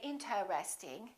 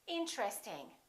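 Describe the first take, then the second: First: The word is said with four syllables. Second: The word is said with three syllables. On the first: The speaker calls it wrong. "Most people don't say interesting" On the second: The speaker calls it right. "They say interesting. This T R are connected"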